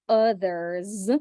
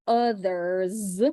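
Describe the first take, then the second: Both takes have the same delivery.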